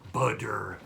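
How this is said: A D-like middle sound and a hard final R. "double T's in the middle of the word often translate to D's, and um, we do a hard R at the end"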